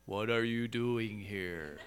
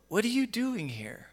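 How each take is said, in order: First: It is said in a flat, monotone voice. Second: It is said with strong feeling and emphasis. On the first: The asker shows no feeling. The speaker calls it wrong. "God's not this monotone, non-feeling voice" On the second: The asker is emotionally involved. The speaker calls it right. "I'm feeling with that emphasis"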